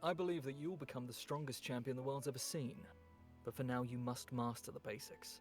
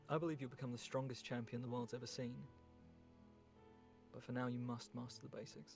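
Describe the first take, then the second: First: It is delivered with higher, performed energy. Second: It is delivered thrown away, with lower energy.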